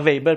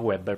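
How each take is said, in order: First: The name begins with a V sound. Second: The name begins with a W sound. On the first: This is the German name. "Questo si chiama Weber, perché è tedesco" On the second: This is the English name. "il compositore si chiama Weber, perché è inglese"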